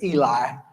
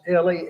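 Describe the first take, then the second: First: The name is said the usual American way. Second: The name is said the local South American way. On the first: "We would pronounce it Eli" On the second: "down there it, it's pronounced Eli"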